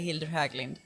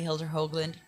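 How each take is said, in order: First: The name is said with a Swedish pronunciation. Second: The name is said with an American pronunciation. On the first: This is the version used for people in Sweden. "if I'm in Sweden, I say" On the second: This is the version used for people in the States. "when I'm in the States, I just say"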